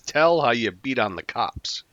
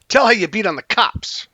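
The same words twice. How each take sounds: First: The character's cadence is imitated mildly. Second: The character's cadence is strongly exaggerated.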